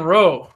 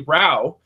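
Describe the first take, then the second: First: The vowel sounds like 'oh' in 'boat'. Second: The vowel sounds like 'ow' in 'cow'. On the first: The speaker calls it wrong. "the linguistical feature of ow in Canadian English is pronounced oh" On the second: The speaker calls it right. "it's it's clearly Rao"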